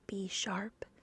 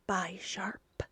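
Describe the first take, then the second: First: The first part is said as 'bee'. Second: The first part is not said as 'bee'. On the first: The speaker calls it right. "is it pronounced B sharp?" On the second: The speaker calls it wrong. "I'm sorry I got it wrong"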